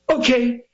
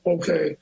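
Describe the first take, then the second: First: It is said with theatrical energy. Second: It is said flatly without energy.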